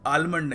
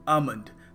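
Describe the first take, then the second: First: An L sound is heard after the first vowel. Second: No L sound is heard after the first vowel. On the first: The speaker calls it wrong. "हम इसको आलमंड नहीं कहेंगे" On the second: The speaker calls it right. "एल है इसको हमें pronounce करने की आवश्यकता नहीं है"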